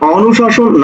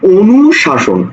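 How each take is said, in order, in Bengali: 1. প্রথম স্বরধ্বনিটি একটি বিবৃত ও ধ্বনি। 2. প্রথম স্বরধ্বনিটি একটি সংবৃত ও ধ্বনি। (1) "অনুশাসন না" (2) "ও ও বলি"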